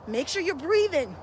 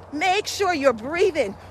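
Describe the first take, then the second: First: Soft coaching reminder. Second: Slow coaching reminder. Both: Shown as a demonstration.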